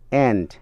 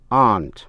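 First: It is said with an American accent. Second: It is said with a British accent. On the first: "Chữ aunt đọc theo tiếng Mỹ" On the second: "nếu đọc theo giọng Anh"

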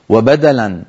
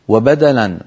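The two takes are said the same way.

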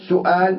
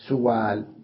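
First: A clear glottal stop is heard in the middle. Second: A smooth w sound replaces the glottal stop.

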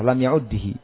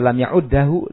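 First: The vowel after the doubled d is i. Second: The vowel after the doubled d is a. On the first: "dibaca dengan kasrah" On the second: "da di fathah"

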